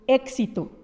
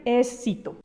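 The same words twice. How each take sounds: First: The x sounds like k followed by s. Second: The x sounds like s followed by k. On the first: "La X es un sonido que es el sonido de la K o de la C con la S"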